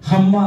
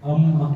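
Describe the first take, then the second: First: The word starts with a breathy h sound. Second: The word starts directly with a vowel. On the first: The speaker calls it wrong. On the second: The speaker calls it right.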